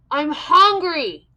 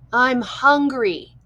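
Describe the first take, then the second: First: It is yelled very loudly. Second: It is said at normal loudness.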